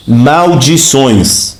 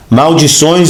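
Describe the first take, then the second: First: Slow emphatic word. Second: Said in the usual way. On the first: Shown as a demonstration. Preacher reveals the word's meaning, slow and weighty. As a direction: stretch Maldições out very slowly. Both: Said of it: "também pode ser o quê?".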